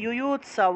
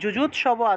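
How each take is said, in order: First: The word begins with a 'y' sound. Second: The word begins with a 'j' sound.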